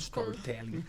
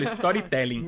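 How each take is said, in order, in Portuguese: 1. É falada com sotaque do inglês americano. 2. É falada com sotaque do português brasileiro. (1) "ela fala storytelling" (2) "falo que nem uma pessoa do interior do Paraná"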